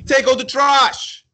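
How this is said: It is said in a harsh, hostile tone. The speaker is being aggressive toward the listener. "why you being so hostile with me?"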